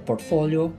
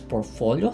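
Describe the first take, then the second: First: The T sound is pronounced in the word. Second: The T sound is left silent in the word. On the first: The speaker calls it wrong. "Let me correct myself" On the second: The speaker calls it right. "silent T"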